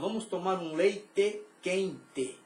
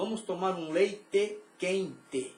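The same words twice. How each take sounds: First: It is spoken in a southern Brazilian accent. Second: The same.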